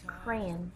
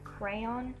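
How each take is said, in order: First: The second vowel is reduced or dropped. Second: The second vowel is a full o sound. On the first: The speaker calls it wrong. "I say it weird ... those damn O's are so hard for me to say" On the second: The speaker calls it right. "Normally it's pronounced like crayon"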